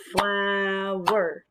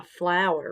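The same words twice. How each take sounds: First: FLOW-ER in two long beats; syllable by syllable. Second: Said in the usual way. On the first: Shown as a demonstration. Teacher cueing children to clap, "Flower" in two parts. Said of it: "Two parts, two syllables".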